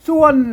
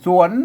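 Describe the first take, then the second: First: The syllable is said with a falling tone. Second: The syllable is said with a rising tone. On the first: "เสียงโทพิเศษโทเมือง" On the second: "เสียงจัตวานะ"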